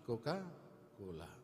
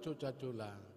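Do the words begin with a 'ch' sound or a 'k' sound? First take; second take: k; ch. First: Each c is said as a 'k' sound. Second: Each c is said as a 'ch' sound. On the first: This is how the younger family members read it. The speaker calls it right. "tapi Coca-Cola" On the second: This is how someone from the village reads it. The speaker calls it wrong. "Bukan Coca-Cola"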